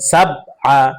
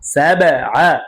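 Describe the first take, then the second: First: The b is closed flat without an echo. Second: The b is released with an echoing bounce. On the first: The speaker calls it wrong. "সহি হবে না, শুদ্ধ হবে না" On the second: The speaker calls it right. "প্রতিধ্বনি আওয়াজ দিয়ে পড়তে হবে, ধাক্কা দিয়ে পড়তে হবে"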